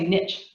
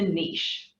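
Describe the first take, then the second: First: It is said in the American way. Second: It is said in the New Zealand way.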